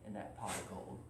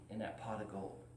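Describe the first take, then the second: No difference in how they are said.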